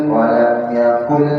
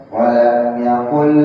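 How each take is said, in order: The two takes are said the same way.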